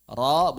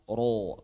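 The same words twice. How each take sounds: First: "Ro" opened and heavy, not rounded; correct open ro. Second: Long falling "ro" with a round O; wrong rounded ro. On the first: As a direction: give "Ro" an open thick vowel. ("Ro" tebal, dibuka) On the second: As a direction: round "ro" off into an O, as a mistake. ("ro" keliru, membulat seperti o) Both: Shown as a demonstration. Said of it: "bukan ro".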